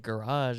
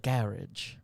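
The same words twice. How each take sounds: First: It is said in an American accent. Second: It is said in a British accent. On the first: The speaker calls it wrong. "I just say garage" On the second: The speaker calls it right. "my sister-in-law's mom is from London ... She would say stuff like"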